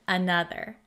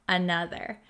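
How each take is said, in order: Both takes have the same delivery.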